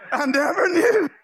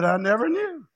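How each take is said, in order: First: High, exclaimed disbelief; mock amazement. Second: Said in the usual way. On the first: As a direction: blurt it out high, playing up the shock. Repeats reply louder, mocking quiet home.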